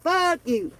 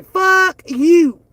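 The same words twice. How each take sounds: First: Softer, dropped-off repeat; softer repeat, almost an afterthought; quiet fuck you. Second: Louder, defiant, punched out; loud defiant curse at critics; loud fuck you. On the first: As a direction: toss it off under your breath. Repeats curse, dropped low. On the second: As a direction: throw it at them hard. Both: Real, not acted.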